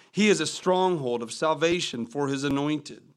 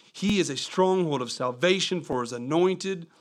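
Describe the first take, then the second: No difference in how they are said.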